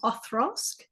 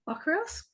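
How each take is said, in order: First: The middle consonant is a th sound. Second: The middle consonant is a k sound. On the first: "like a T H kind of sound" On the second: "I originally used to say Okra, Okrosk"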